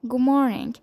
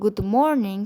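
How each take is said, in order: First: Some sounds are dropped and the phrase is faster. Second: Every sound in the phrase is pronounced fully. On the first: The speaker calls it right. "speak more fastly by not sounding some sounds" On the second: The speaker calls it wrong. "instead of saying"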